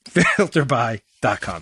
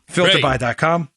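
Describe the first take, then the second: First: Slow, chuckling through the tagline; laughing. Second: Said in the usual way. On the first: Real, not acted. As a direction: laugh at yourself as you repeat it. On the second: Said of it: "Sound like a cheerleader".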